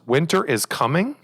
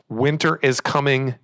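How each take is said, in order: First: The voice rises at the end, like a question. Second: The voice falls at the end, like an exclamation.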